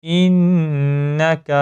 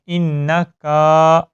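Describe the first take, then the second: First: انک with a short crisp کاف and no added aa; short kaaf. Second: انکا with the کاف stretched into a long aa; wrong long kaaf. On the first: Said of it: "کاف کو لمبا نہیں کیا جائے گا". (صحیح طریقہ، انک میں کاف چھوٹا) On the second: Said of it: "کاف کو لمبا کر دیتے ہیں". (غلط طریقہ، انکا میں کاف کو لمبا کر کے) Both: Shown as a demonstration.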